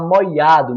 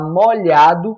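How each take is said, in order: First: The middle sound is an i glide. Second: The middle sound is a palatal lh. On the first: "trocar o L H pelo I A" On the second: "ao invés de falar molhado"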